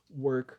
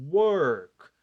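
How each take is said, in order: First: Said in the usual way. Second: "Work" loud and drawn out as one syllable; one mouth movement. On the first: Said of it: "só um movimento de boca". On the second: Shown as a demonstration. Teacher showing one movement of the mouth, "Work" loudly stretched. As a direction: hit "Work" hard in one long glide. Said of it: "abri e fechei".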